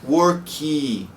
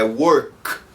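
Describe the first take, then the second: First: An extra vowel sound follows the final k. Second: The word ends on a bare, unvoiced k. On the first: The speaker calls it wrong. "Não pronuncie worky, porque tá errado" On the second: The speaker calls it right. "é work. Sem vibração"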